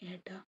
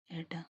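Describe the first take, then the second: First: A hushed, gentle calling of ഏട്ടാ; soft call. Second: ഏട്ടാ called with a mild catch of tears; understated crying call to her brother; a touch of weeping in ഏട്ടാ; tearful call. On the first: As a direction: call her brother softly, barely pleading. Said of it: "പതിഞ്ഞ സ്വരത്തിൽ ശ്യാമിനെ വിളിച്ചു". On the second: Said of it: "അവൾ കരച്ചിലോടെ വിളിച്ചു". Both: A narrator's reading.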